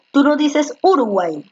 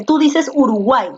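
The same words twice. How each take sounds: First: Uruguay with the stress moved to the first syllable, U; misplaced stress. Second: Said in the usual way. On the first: Shown as a demonstration. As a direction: demonstrate a wrong stress, URuguay instead of uruGUAY. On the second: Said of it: "dónde tiene la mayor fuerza de voz".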